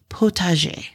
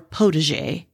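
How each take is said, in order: First: The word is pronounced the French way. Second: The word is pronounced the English way. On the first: "I happen to speak French, so I am going to say it the correct way" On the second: "as some people will say"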